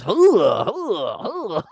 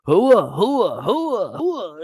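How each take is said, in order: First: High, loud barked army chant fading; barked hooah. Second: Loud, high barked army chant, repeated; barked hooah. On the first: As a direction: bark it like an Army grunt. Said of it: "the Army is". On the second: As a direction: bark it like an Army drill crowd. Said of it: "all you hear is". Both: Retold or imitated.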